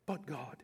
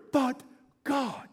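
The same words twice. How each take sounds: First: Much softer, lower echo of the phrase; hushed repeat. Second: Said in the usual way. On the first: Acted. Preacher repeating his key phrase to the church, hushed. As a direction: let it fall to a hush. Repeated climax, dropped low.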